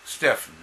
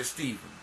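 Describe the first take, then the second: First: Stephen with a short e and an f sound; "STEFF-en" for Stephen, set out alone. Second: Stephen with a long ee and a v sound; "STEE-ven" for Stephen. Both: Shown as a demonstration. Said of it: "some people say Stephen".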